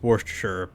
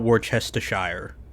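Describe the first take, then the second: First: The word is said short, with syllables reduced. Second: The word is said fully, syllable by syllable. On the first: "the proper way to pronounce it is" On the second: "but it is spelled out"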